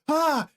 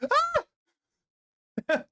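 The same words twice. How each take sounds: First: The scream is lower and less shrill. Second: The scream is high-pitched and shrill. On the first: This is not how the scream sounded. "It wasn't like" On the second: This is how the scream really sounded. "I screamed like a little schoolgirl. It was more like"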